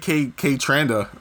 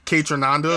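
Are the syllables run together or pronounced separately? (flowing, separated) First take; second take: separated; flowing. First: Every syllable is pronounced separately and carefully. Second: The syllables run together smoothly. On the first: The speaker calls it wrong. "I'm like pronouncing every fucking syllable" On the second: The speaker calls it right. "It flows better"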